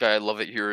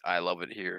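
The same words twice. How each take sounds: First: Sarcastic I love it here. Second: Weary despair. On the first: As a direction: say it with irony. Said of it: "as in, like, a sarcastic". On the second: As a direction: say it like life is pain. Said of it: "as in, like, life is pain". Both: Shown as a demonstration.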